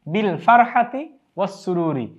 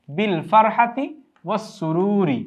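First: Said in the usual way. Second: "বিল ফারহাতি was সুরুরি" drawn out slowly, word by word; slow demonstration. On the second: Shown as a demonstration. Teacher models the phrase for students, slowly. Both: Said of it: "সেজন্য আমরা একসাথেই রেখেছি".

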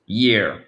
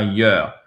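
First: "year" with a clear y and ee sound; correct year. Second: "year" with a rounded "yuh" vowel; mispronounced year. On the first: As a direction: say "year" as "yeer". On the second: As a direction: say "year" wrongly as "yur". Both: Shown as a demonstration. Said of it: "C'est pas year".

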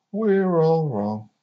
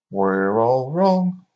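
First: "We're" pitched high, sliding down to "wrong"; slow chant, falling away on "wrong"; sing-song mock answer. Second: "wrong" drawn out and rising; slow, loud chant, lifting up on "wrong"; sing-song mock celebration. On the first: Cheering that everybody's in the wrong, slowly falling to "wrong". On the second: Cheering that everybody's in the wrong, "wrong" slowly rising.

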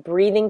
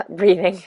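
First: Said in the usual way. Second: Breathing said on a heavy sighing breath; a mock heavy-breather's breathing. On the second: Shown as a demonstration. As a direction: push breathing out on a big audible sigh. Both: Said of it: "I don't want the heavy breathing".

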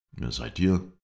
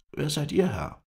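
First: Said in the usual way. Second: High, louder character voice; pitched-up voice for the Kurd; Kurdish stranger. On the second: A narrator's reading. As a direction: question back in a raised, high voice. Kurd returns the question.

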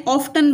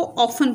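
First: "ऑफ्टन" with the t sounded; T pronounced. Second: "ऑफन" with no t sound; silent T. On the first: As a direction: say "ऑफ्टन" as spelled, off-ten. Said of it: "ऑफ्टन बनता है". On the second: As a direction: say "ऑफन" as off-en, dropping the t. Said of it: "लेकिन हम इसको ऑफन पढ़ते". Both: Shown as a demonstration.

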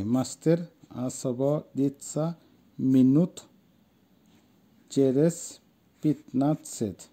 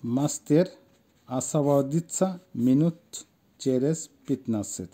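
First: Very slow, each word set apart; pronunciation demo. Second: Said in the usual way. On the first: Shown as a demonstration. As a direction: model it word by word with long pauses. (প্রতিটি শব্দ ধীরে, আলাদা করে উচ্চারণ) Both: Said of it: "আসেন উচ্চারণটা দেখি".

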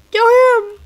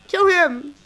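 First: Higher, louder command; urgent yell. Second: Said in the usual way. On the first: Real, not acted. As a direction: shout it at the screen. Urging the kill, louder.

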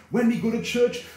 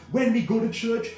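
Both takes have the same delivery.

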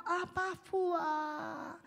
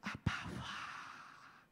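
First: Slow, tearful plea, drawn out; crying prayer. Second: Slow, breathy whisper to the Father; whispered prayer. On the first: Pastor shows someone who can't pray, tearfully. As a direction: let the voice break as you call. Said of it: "当你不知道怎么祷告". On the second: Pastor shows the weary believer, whispering. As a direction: whisper it slowly, worn out. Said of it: "很累的时候". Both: Shown as a demonstration.

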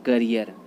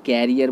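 First: करियर with short 'kuh' start; करियर, first vowel reduced to schwa; correct pronunciation. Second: कैरियर with an 'air' first vowel; कैरियर like English 'carrier'; common mispronunciation. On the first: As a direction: say करियर as 'kuh-ri-er'. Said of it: "right pronunciation होता है". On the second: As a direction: say कैरियर as 'KAIR-i-yer'. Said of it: "कैरियर गलत होता है". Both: Shown as a demonstration.

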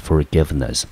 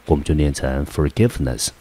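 First: Forgiveness, stress on give, falling; model word again. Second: Forgiveness with weight on give; stress on second syllable. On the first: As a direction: repeat Forgiveness as a clean model. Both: Shown as a demonstration. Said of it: "重音节一样落在第二个音节".

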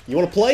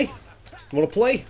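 First: Loud, higher, punchy challenge; loud taunt. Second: Slow, higher, stretched mocking sing-song; sing-song taunt. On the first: Gamer daring the cop to fight, loud taunt. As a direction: bark the dare at him. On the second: Gamer mocking the cop he's beating, slow sing-song taunt. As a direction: drag it out to mock him. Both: Real, not acted.

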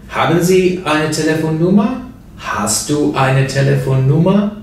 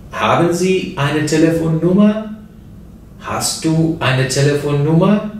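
Both takes have the same delivery.

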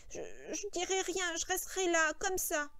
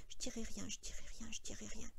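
First: Higher, halting recitation; Lenny straining to remember. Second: Whispered repetition under the breath; soft murmur to himself. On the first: Lenny reciting what he must do for George, effortful. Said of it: "Son visage se tendait sous l'effort de la pensée". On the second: Lenny murmuring to himself to memorise, whispered. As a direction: murmur it over, barely voiced. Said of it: "Lenny murmura en lui-même doucement". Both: A narrator's reading.

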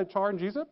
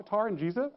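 First: "char" starting like "chair"; "char" with ch sound. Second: "tar" starting on a plain T sound; "tar" with hard t. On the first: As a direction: soften the T into CH on "char". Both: Retold or imitated. Same name said two ways.

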